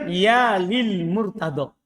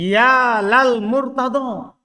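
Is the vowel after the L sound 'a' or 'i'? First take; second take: i; a. First: The l is followed by an i vowel. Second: The l is followed by an a vowel. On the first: It is the ordinary form before a plain noun. "Seharusnya kan ya lil murtado. Karena dia isim dohir" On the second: The one named is being called on for help. "dengan lam yang di fathah"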